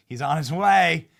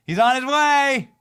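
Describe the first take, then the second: First: Said in the usual way. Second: He's on his way, much higher and louder, stretched out; excited shout. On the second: Shown as a demonstration. Host hyping viewers about Trump's trip, excited shout. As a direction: belt it like big news arriving. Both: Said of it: "repeats with rising excitement".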